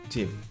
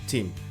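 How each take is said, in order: First: The vowel is short and clipped. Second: The vowel is short and clipped.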